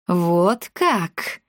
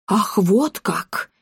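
First: A touch of malice in a questioning jab; understated venomous query; spiteful. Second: Drawn-out indignant exclamation; mild mock screech of outrage. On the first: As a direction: ask it with contained spite. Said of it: "злобно осведомилась старушка". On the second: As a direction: cry out, scandalised. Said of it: "заверещала Клеопа". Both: A narrator's reading.

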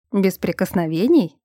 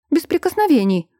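First: A level, questioning repeat of Без прикосновений; teasing echo. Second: Sharp exclamation, higher pitched; no touching, pitched up and emphatic; exclaiming. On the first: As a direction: toss her words back, amused. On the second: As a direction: cry it out as a firm warning. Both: A narrator's reading. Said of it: "воскликнула Эльза".

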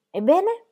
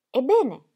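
First: Sudden high rising "Ebbene?"; impulsive question. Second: "Ebbene?" repeated, louder, with a falling, alarmed edge; strongly alarmed. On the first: Wife springing up as the men come out, sudden "Ebbene?". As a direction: jump up and ask "Ebbene?" at once, pitched high. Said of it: "si alzò di impulso chiedendo". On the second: Wife repeating her question to the doctor, alarmed. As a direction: press for the answer, "Ebbene?" full of alarm. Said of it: "ripeté Ingeborg fortemente allarmata". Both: A narrator's reading.

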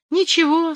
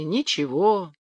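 First: Very high creaky squeak; creaking weathervane. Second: Said in the usual way. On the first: Acted. Weathervane creaking in a strong wind, high and squeaky. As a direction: squeak it like a rusty vane. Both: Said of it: "скрипит флюгер".

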